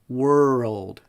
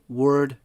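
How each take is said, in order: First: It has two parts, the second falling. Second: It has one part, with the ending dropped. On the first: The speaker calls it right. "there are two sounds to each of these words" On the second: The speaker calls it wrong. "don't say"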